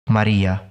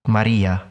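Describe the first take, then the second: First: The r is trilled lightly. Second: The same.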